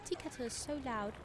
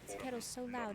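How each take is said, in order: First: It is said with an American-sounding accent. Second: It is said with a British-sounding accent.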